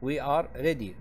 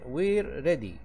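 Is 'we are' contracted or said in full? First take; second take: full; contracted. First: 'We are' is said as two full words. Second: 'We are' is shortened into one syllable.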